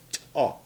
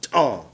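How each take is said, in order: First: T-AH in two syllables, clear gap after the puffed T; separated t-ah. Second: T-AH as one joined syllable, no gap after T; run-together t-ah. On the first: Teacher shows the correct way, T-AH with definite separation. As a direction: release T alone, pause, then AH in T-AH. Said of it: "There's a definite separation between that T and A U H". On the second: Teacher repeats the wrong way for learners, T-AH without separation. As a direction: push T directly into AH in T-AH. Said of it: "It's not t-ah". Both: Shown as a demonstration.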